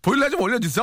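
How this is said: It is said in a lively, funny tone.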